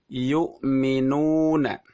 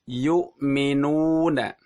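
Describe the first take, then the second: Both takes have the same delivery.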